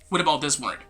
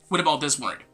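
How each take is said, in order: No difference in how they are said.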